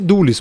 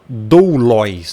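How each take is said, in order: First: The ending is said with an 'ee' sound. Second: The ending is said with an 'oy' sound. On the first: The speaker calls it right. "Você pronuncia-se doulis" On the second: The speaker calls it wrong. "Você não fala doulois"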